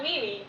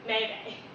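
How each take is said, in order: First: Two syllables, both like 'me'. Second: Two syllables, both like 'may'. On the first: "it's not Mimi" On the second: "or Maymay"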